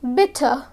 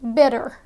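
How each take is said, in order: First: The middle consonant is a clear T. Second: The middle consonant sounds like a D. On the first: "which sounds very British" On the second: "natives would say bitter"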